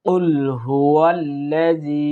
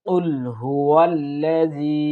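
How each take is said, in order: No difference in how they are said.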